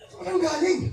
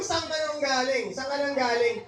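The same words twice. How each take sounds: First: High, furious demand; really angry, laughing through it. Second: Disappointed but held-back anger; annoyed yet respectful, higher pitch; restrained anger. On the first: To the friend who got you fired, furious demand. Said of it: "galit na galit ka eh". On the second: To a wife who came home late, mildly angry. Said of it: "galit pero hindi masyadong galit". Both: Shown as a demonstration.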